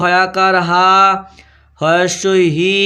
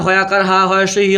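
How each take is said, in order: First: হয়াকার হা, হয়স্বই হি stretched out syllable by syllable; drawn-out spelling. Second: Said in the usual way. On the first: Shown as a demonstration. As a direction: hold the final vowels of হা and হি long, pausing between the two. Slow repeat for pupils to write. (হা আর হি টেনে টেনে, থেমে থেমে বলা)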